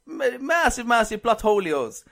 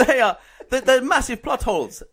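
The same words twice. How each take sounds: First: Slow mock-Italian with an invented "holios" ending; overdone fake Italian, stretching "holios"; exaggerated Italian accent. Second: Put-on Italian accent. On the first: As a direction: Italianise "holios" for comic effect. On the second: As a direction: complain in hammed-up Italian, half laughing. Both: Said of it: "Well, in Italian accent".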